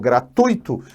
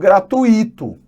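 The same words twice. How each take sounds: First: The stress falls on the standard syllable. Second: The stress falls on a shifted syllable. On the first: The speaker calls it right. "pego uma palavra como gratuito" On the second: The speaker calls it wrong. "dando tonicidade à sílaba que não é a tônica"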